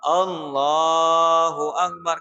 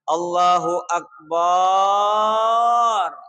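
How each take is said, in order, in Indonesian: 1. Bunyi l dalam Allahu dipanjangkan. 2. Vokal setelah b dalam Akbar dipanjangkan. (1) "kan lamnya yang dipanjangkan" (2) "tidak boleh memanjangkan banyo"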